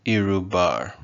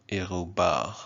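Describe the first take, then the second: First: "irubar" with English approximant R's. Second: "irubar" with R's in the throat; French-style R's. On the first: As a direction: say "irubar" as ee-roo-BAR, American R. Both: Shown as a demonstration. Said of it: "how you want to pronounce your R's".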